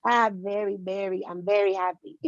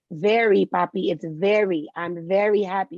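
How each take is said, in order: First: Lightly imitated Latino accent on VERY; dad's thick accent. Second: VERY said slowly and firmly with a clear V; correcting dad's pronunciation. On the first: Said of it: "my dad has the thickest accent". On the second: Retold or imitated. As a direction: stress VERY, teasingly modelling the English V for dad. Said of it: "I always laugh at him 'cause I'm like".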